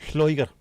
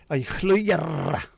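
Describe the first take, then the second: First: "Lloegr" said short, loud and on its own; short, firm go at Welsh "Lloegr"; pronunciation attempt. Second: "Lloegr" high and loud, ending in a long rolled growl; exaggerated, drawn-out trilled R on "Lloegr"; big-cat growl pronunciation. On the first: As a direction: try "Lloegr" briskly, without drawing out the ending. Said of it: "how the freaking hell do you pronounce that". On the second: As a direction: roar the end of "Lloegr" like a lion. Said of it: "a bit like a lion and a tiger stuck together". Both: Shown as a demonstration.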